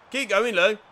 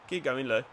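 First: Excited shout of encouragement; louder urging. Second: Said in the usual way. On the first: Real, not acted. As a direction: call it out, higher and louder. Urging his player on.

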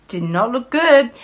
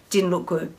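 First: "Did not" spelled out with a push on "not"; stress on not. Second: Said in the usual way. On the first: Shown as a demonstration. Correcting herself, pushing on not. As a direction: hit "not" firmly in "Did not look good.".

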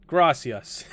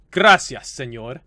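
First: Said in the usual way. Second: Loud, hammed-up Spanish accent; put-on Spanish accent. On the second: Shown as a demonstration. Gamer showing off their Spanish, put-on Spanish accent. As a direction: lay the Spanish accent on thick. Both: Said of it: "I just like putting the accent onto it".

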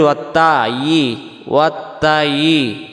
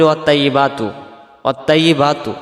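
First: ওয়াত্তায়ি sung slowly with a heavy, full ত; correct heavy ত. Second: ওয়াত্তাইয়িবাতু with a thin light ত, said quickly; wrong pronunciation. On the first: Teacher demonstrating correct ত in ওয়াত্তায়ি. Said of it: "ত অক্ষরটা তখন তায়ের উচ্চারণ আসতেছে". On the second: Teacher showing the mistake in ওয়াত্তাইয়িবাতু. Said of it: "যদি আমরা পড়ি, ... তা অক্ষর হয়ে যাবে". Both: Shown as a demonstration.

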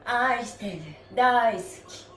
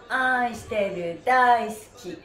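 The two takes are said the same way.

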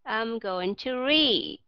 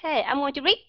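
First: "read" drawn out, falling to a voiced d; slow model sentence stretching "read"; corrected long vowel. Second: "read" cut short like "reet"; learner's short "read" with a rising end; mimicked mispronunciation. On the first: Shown as a demonstration. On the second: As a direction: clip the vowel of "read", ending on a t. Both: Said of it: "Sai chỗ nào?".

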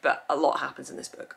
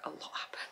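First: Said in the usual way. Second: Hushed, teasing aside; whisper. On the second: Real, not acted. Hinting at spoilers to viewers, whispered aside. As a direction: drop to a whisper to tease.

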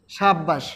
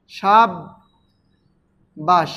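First: Said in the usual way. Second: সাব্বাস as সাব, long pause, বাস; syllable split. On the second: Shown as a demonstration. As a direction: pull সাব্বাস apart slowly into সাব and বাস. (সাব্বাস ভেঙে সাব, বাস) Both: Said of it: "উচ্চারণ লিখলে হবে কি সাব".

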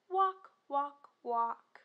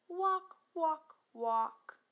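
No difference in how they are said.

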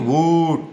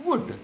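First: Wood with an overlong, held "oo"; wrongly long wood. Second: Wood with a quick, short "oo"; short vowel in wood. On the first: Teacher showing what not to say, wood stretched long. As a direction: drag out the vowel in wood, louder. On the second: Teacher showing the right sound, wood said short. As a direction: keep the vowel in wood brief. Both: Shown as a demonstration. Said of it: "ऐसा नहीं wood".

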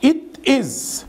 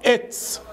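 First: High, full "it is"; two separate words, "it is"; careful uncontracted "it is"; full form. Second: "it's" as one syllable, "ets"; contracted "it's"; fast reduced form. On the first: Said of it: "بتنطق بقى fast speaking إزاي". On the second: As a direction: squeeze it is into "it's". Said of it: "بتتنطق". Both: Shown as a demonstration.

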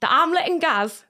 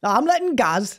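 First: Slow, higher-pitched Geordie; Geordie model. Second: Careful copied Geordie accent; good Geordie attempt. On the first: Coaching the accent in short chunks, slow Geordie. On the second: Repeating after the coach, careful Geordie accent attempt. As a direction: echo the coach's Geordie chunk. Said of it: "That was good". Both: Shown as a demonstration.

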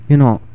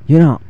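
Both takes have the same delivery.

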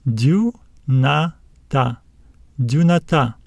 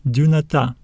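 First: "Dunata" slowly split into du, na, ta; slow teacher's demo of "Dunata", rising at the end; syllable by syllable. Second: Said in the usual way. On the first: Shown as a demonstration. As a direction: sound out "Dunata" in three separate syllables, stressing the last. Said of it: "Let's read it". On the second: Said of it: "We will stress this alpha at the end".

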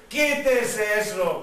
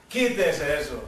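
First: Slow, drawn-out emphatic order; insistent command. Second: Low-pitched, contained order; divine command. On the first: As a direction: stretch each word of the command, brooking no excuse. Dios repite la orden, insistente. (orden insistente, lenta y marcada) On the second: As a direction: give the order low, as the Lord. Primera orden de Dios, grave. (orden divina en tono grave) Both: Retold or imitated.

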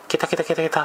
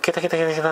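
First: Lightly mimicked high cackling laugh, ケタケタケタケタ; mock the lady's cackle, not full voice; a hint of a cackling laugh; imitated cackle. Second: Lightly mimicked cackle, ケタケタケタケタ said again the same way; understated cackling laugh; imitated cackle. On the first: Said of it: "なんかこう笑い出したわけ". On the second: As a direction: echo the lady's cackle mildly. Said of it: "って言って".

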